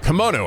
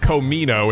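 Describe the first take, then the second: First: The vowels are in order, starting with 'ki'. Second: The vowels are swapped, starting with 'ko'. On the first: The speaker calls it right. "I actually do know how to say this word though" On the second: The speaker calls it wrong. "I got my my vowels backwards"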